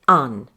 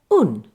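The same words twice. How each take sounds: First: The vowel is the open standard southern British sound. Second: The vowel is the rounded northern English 'oo' sound. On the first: "those of us with a received pronunciation say" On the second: "someone with a northern accent will say"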